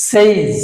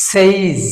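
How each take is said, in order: No difference in how they are said.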